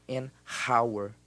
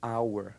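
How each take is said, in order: First: "hour" said with an h, "h-awer"; wrong h sound. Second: "hour" said "awer", no h; silent h. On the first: Teacher demos the wrong aspirated hour. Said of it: "A gente não fala". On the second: Teacher demos the correct silent-h hour. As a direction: start "hour" on the vowel. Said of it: "Hora em inglês é". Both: Shown as a demonstration.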